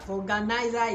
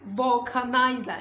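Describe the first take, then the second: First: The middle consonant is a G sound. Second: The middle consonant is a K sound. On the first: The speaker calls it wrong. "Vulganizer is wrong. ... there's nothing like G" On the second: The speaker calls it right. "please say vulcanizer"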